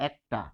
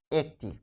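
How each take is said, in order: First: একটা said with the e opened toward æ, as ækta; e shifts to a. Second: একটি with a clear open e at the start; e sound kept. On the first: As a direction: make the e in একটা open, ækta. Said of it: "এর উচ্চারণ এরকম হয়ে যাবে". (একটা-তে এ বদলে অ্যা উচ্চারণ) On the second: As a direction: say একটি with the e unchanged. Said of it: "তখন এ থেকে যাবে উচ্চারণে". (একটি-তে এ অপরিবর্তিত) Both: Shown as a demonstration.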